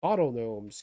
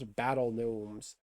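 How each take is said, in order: First: Bottle Gnomes said with an "ah" vowel, as in bottle; corrected name. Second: Battle Gnomes said with a clear "a", as in battle; slow slip saying Battle Gnomes instead of bottle; card name Battle Gnomes read wrong, "battle" vowel; misread name. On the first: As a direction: fix the slip to say Bottle Gnomes. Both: Shown as a demonstration. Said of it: "I always flip that around".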